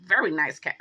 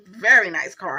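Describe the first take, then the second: First: Said in the usual way. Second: Very nice car said again louder, each word pressed; sarcastic repeat. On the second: Real, not acted. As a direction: repeat it with dry, heavy irony.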